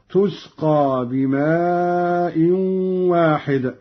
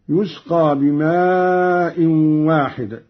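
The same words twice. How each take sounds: First: تسقى begun with a t sound; Qalun's feminine reading. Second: يسقى begun with a y sound; reference reading. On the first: Reciter showing Qalun's feminine ta, measured reading with t. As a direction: recite تسقى with initial tu, long madd on بماء. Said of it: "قرأ قالون بالتاء على التأنيث". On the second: Reciter giving the verse before the variant, measured reading with y. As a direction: recite يسقى with initial yu, long madd on بماء. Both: Shown as a demonstration.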